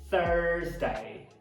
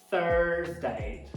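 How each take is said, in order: First: The first vowel has a strong r color. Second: The same.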